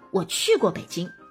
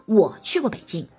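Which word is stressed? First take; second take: 去过; 我. First: The stress falls on 去过. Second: The stress falls on 我. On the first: It answers whether I have been to Beijing. "你去过北京吗" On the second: It answers who has been to Beijing. "你们当中有谁去过北京啊"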